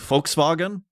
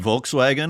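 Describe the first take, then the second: First: It is said with a German pronunciation. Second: It is said with an English pronunciation.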